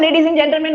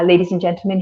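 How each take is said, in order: First: It is said in an Indian accent. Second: It is said in a neutral accent. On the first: "And then there's Indian accent" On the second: "So it's neutral, no accent"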